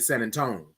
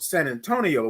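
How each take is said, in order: First: The final vowels of Antonio are clipped away. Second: Every syllable of Antonio is fully pronounced. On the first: This is how locals say it. "We say San Antonio. Where the I O go?" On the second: This follows the spelling. "Because that's how it's spelled"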